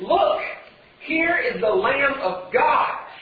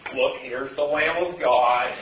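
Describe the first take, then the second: First: It is yelled with passion and excitement. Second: It is said in a slow, gloomy voice. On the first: The news is announced with passion. The speaker calls it right. "There's some passion in his voice. There's some excitement. He's yelling" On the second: The news is said as if it were dull. The speaker calls it wrong. "It wasn't like Eeyore talking"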